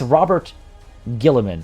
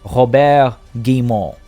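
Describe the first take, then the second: First: The name is said with English pronunciation. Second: The name is said with French pronunciation. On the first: "it's it's Robert Guilliman, right?" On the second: "technically be like Robert Guillemot, I guess, if he's French"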